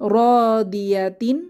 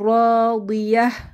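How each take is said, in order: First: The word ends with a t and an n sound. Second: The word ends in a soft h sound. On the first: The reading continues without stopping. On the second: The reading stops at this word.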